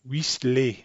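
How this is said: It ends like a French -er verb. The speaker calls it wrong. "as they pronounce a French verb, an E R verb"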